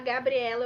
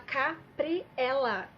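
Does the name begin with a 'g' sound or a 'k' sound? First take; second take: g sound; k sound. First: The name begins with a voiced 'g' sound. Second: The name begins with a voiceless 'k' sound. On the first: The speaker calls it right. "em vez de falar Gabriela" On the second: The speaker calls it wrong. "eu falava Capriela"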